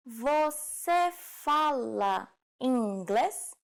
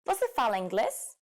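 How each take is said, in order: First: Very slow, word by word; slow demonstration. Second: Said in the usual way. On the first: Shown as a demonstration. Teacher models the informal question for learners, very slowly. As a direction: stretch out each word for learners.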